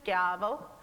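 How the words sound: The ch is a hard k sound. "would say it in a Roman accent"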